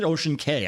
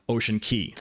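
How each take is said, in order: First: The second word rhymes with 'say'. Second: The second word rhymes with 'see'. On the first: "Some people call them K" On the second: "Some people call them Key"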